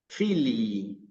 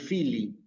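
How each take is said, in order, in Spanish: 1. La i final se alarga. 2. La i final es corta. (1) "Ven que yo alargué la I" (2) "No digo solamente Fili"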